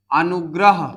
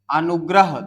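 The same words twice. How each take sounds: First: अनुग्रह said louder, every syllable clear; louder, careful अनुग्रह; clear emphasis. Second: Said in the usual way. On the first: Shown as a demonstration. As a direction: stress अनुग्रह as the word to break apart. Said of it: "तो सबसे पहले तो आ". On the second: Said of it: "ध्यान देना".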